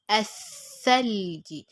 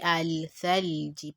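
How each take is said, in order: First: The l is dropped and the th is doubled. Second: The article's l sound is clearly pronounced. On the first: The speaker calls it right. "but Athalji. Pronounce the alif and jump straight to the letter" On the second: The speaker calls it wrong. "I didn't say Al-Thalji"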